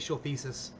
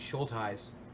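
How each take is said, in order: First: The surname is said ending in 'thesis'. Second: The surname is said without a 'thesis' ending. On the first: "I know it's wrong and it's funny" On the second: "Am I saying it right?"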